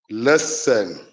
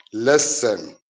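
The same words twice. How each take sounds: The two takes are said the same way.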